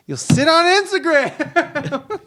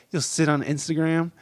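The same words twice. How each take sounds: First: Much higher, slow, laughing taunt; mocking singsong. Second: Said in the usual way.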